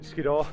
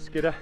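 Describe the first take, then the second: First: The last syllable has a full, careful vowel. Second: The last syllable is weakened to a lazy vowel. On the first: This is the careful, proper way to say the name. "I've always pronounced it Skiddaw" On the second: This is a casual, slangy way to say the name. "you hear people call it Skidder ... lazy and slanging it"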